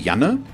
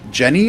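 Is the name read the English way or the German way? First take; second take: German; English. First: The name is read with a German pronunciation. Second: The name is read with an English pronunciation. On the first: "the German in me wants to say Janne" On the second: "if I would pronounce it English, would be Jenny or something like that"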